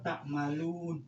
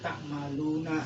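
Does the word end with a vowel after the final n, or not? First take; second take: not; vowel. First: The word ends on a bare n sound. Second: The final n is followed by a short a. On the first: "nunnya disukun" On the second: "nunnya dibaca fathah"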